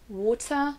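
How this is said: It is said with a British accent. "pour l'accent britannique"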